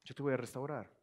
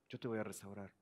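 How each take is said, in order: First: Tender promise. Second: Whispered promise. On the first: Repeated promise. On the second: Repeated softer. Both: Acted.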